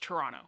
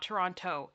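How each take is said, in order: First: The second T is dropped. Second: The second T is clearly pronounced. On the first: The speaker is a local. The speaker calls it right. "you do not pronounce the second T" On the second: The speaker is not from here. The speaker calls it wrong. "It's not Toronto"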